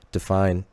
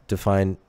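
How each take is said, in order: Both takes have the same delivery.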